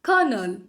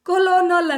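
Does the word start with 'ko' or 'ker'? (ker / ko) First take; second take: ker; ko. First: It is said as kernel, two syllables. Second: It is said as ko-lo-nal, with an L. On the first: The speaker calls it right. "ಅನ್ನೋದೇನು ಕರ್ನಲ್" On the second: The speaker calls it wrong. "ಬರೀತಾರೆ"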